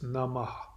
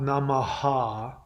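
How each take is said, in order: First: The final 'ha' is a half syllable. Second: The final 'ha' is a full syllable. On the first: The speaker calls it right. "That ha is actually a half syllable. It's Namah" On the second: The speaker calls it wrong. "many people mispronounce it. It's not Namaha"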